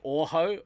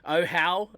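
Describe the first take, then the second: First: The name is said with Maori vowel sounds. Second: The name is said with anglicized English vowel sounds.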